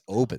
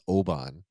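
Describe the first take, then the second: First: It is said the local Scottish way. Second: It is said the American way. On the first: The speaker calls it right. "It's Oban" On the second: The speaker calls it wrong. "we all in the U S pronounce this Oban"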